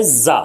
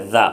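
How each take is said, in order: First: "زا" with a strong buzzing z; forceful ZA. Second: "زا" said lightly as th in "this". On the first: Teacher comparing the two brother letters, forceful za. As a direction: lean hard on the z of "زا". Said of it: "زور والا". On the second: Teacher comparing the two brother letters, light za. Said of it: "وہ تو ہلکا والا ہے". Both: Shown as a demonstration.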